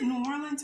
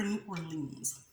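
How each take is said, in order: First: New Orleans ending in a short, unstressed "lunz"; short final syllable. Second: New Orleans ending in a long "leenz". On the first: Asking viewers how it is said, New Orleans with short "lunz". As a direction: say "New Orleans" with a quick, reduced last syllable. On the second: Offering viewers the other option, New Orleans with long "leenz". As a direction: say "New Orleans" with a drawn-out EE in the last syllable. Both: Shown as a demonstration. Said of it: "How do you pronounce it?".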